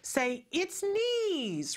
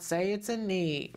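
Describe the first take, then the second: First: It is said in an excited, enthusiastic way. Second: It is said in a flat, dull way. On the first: The speaker calls it right. "she's saying it in a way that it's exciting and it's wonderful" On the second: The speaker calls it wrong. "this is not"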